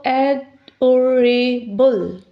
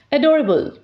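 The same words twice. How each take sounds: First: 'adorable.' said slowly as a-dor-a-ble; slowly split into syllables. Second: Said in the usual way. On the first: Shown as a demonstration. Teacher to students counting syllables, slowly sounding out 'adorable.'. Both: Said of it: "we can see in the third".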